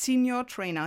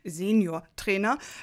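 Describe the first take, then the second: First: Senior is pronounced as in English. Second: Senior is pronounced as in German. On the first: The speaker calls it right. "Es heißt Senior Trainer hier in Schleswig-Holstein" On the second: The speaker calls it wrong. "also ganz klassisch gesagt"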